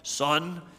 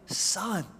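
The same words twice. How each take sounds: First: It is said in a cold, stern tone. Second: It is said in a warm, loving tone.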